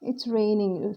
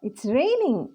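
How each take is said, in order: First: It falls and sounds unhappy. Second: It sounds surprised. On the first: The speaker is displeased about the rain. "Falling tone అనుకోండి. Not so happy" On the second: The speaker did not expect the rain.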